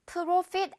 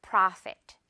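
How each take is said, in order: First: Profit said with an o like 프로; the Korean-style wrong version of profit; 틀린 발음 프로핏; wrong pro vowel. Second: Profit said with a wide open ah, prafet; the right version, mouth open on profit; 올바른 발음 프라핏; correct prafet. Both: Shown as a demonstration. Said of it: "profit 아니고요".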